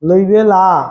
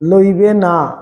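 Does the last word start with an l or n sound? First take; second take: l; n. First: The last word starts with an l sound. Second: The last word starts with an n sound. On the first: The speaker calls it wrong. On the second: The speaker calls it right.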